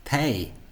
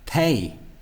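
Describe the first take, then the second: The two takes are said the same way.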